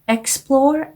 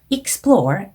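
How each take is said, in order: First: The first syllable sounds like the letter X. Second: The first syllable does not sound like X. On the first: The speaker calls it wrong. "X로 발음하지 않게 조심해 주셨어야 됩니다" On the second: The speaker calls it right. "이렇게 발음하시는 거고요"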